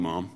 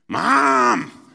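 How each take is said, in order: First: The word is said softly and sweetly. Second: The word is called out loudly and piercingly. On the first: The child is expressing affection. "sometimes it's really sweet" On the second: The child is demanding attention from afar. "Sometimes it's not so sweet"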